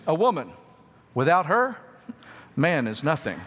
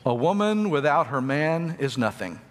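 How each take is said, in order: First: It is said with pauses after woman and her. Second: It is said without pauses.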